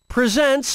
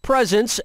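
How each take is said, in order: First: The stress is on the second syllable. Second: The stress is on the first syllable. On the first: It means to introduce or show something. "different pronunciations and meanings" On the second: It means gifts. "as in gifts"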